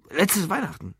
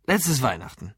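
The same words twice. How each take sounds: First: High-pitched burst of remembering; sudden recollection. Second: Said in the usual way. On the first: Acted. Drunk Lou suddenly remembers his last free day, blurting. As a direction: blurt it out as it comes back. Sudden recall after thinking hard.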